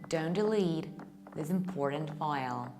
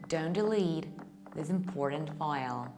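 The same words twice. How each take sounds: First: It is said in an American accent. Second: It is said in an American accent.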